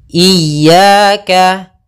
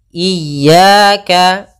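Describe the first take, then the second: The two takes are said the same way.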